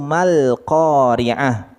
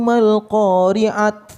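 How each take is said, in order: First: The final word ends in an h sound. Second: The final word ends in a t sound. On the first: The speaker calls it right. "kalau kita bacanya di wakaf, maka dia menjadi ha" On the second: The speaker calls it wrong. "Enggak. Tapi dibacanya ha ya"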